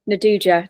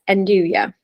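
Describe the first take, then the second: First: It is said the way Italians say it. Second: It is said the usual English way. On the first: "some of the Italians fondly call it" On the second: "but yeah, it's Enduja"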